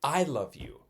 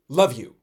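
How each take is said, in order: First: "I love you" with weight on "I"; "I love you" spoken as the full phrase. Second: "love you" said louder, without the I; "love you" as a casual sign-off; clipped love you. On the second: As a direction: drop the I and say "love you" loudly. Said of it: "not "I love you". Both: Shown as a demonstration.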